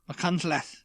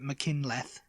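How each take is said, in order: First: It is said with Welsh pronunciation. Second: It is said with an English pronunciation. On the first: "there's McCuntleth" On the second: "people would call it McKinleth"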